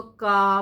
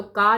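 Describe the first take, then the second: First: का with a throaty uvular q, unlike plain का; nukta qa. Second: Said in the usual way. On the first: Shown as a demonstration. Teacher contrasting plain and nukta sounds, throaty का. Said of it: "इसको का पढ़ना है". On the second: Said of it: "तो का नहीं पढ़ना है".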